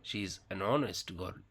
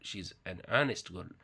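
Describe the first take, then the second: No difference in how they are said.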